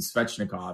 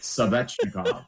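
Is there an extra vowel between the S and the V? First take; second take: no; yes. First: The S and V are joined with no vowel. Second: An extra vowel separates the S and V.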